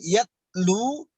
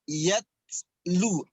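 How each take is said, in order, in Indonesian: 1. Huruf t dilepaskan tanpa desisan angin. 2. Huruf t dilepaskan dengan sedikit desisan angin. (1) "bukan yatlu" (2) "agak sedikit suara desisan angin ya"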